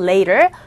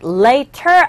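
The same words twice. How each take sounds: First: The middle t is a soft flap, r-like. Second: The middle t is a crisp, clear t. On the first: The speaker calls it right. "아래 가깝게 들리는 소리가 납니다" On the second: The speaker calls it wrong. "아니고"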